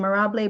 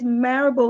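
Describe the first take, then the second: First: The name does not rhyme with parable. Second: The name rhymes with parable. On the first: The speaker calls it wrong. "I mispronounced your name" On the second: The speaker calls it right. "like parable"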